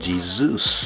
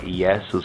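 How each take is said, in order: First: The name is said with the common English pronunciation. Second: The name is said with a Hebrew-like pronunciation. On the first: This is the foreign form of the name. The speaker calls it wrong. "falsely called Jesus, the foreign pronunciation" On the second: This is the original form of the name. The speaker calls it right. "but more properly"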